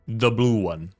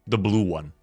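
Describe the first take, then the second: No difference in how they are said.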